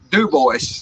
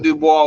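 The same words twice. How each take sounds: First: The name is said with anglicized pronunciation. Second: The name is said with French pronunciation. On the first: This is how the local town name is said. "didn't pronounce it French. They pronounced it Dubois" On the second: This is how the original French name is said. "not Dubois"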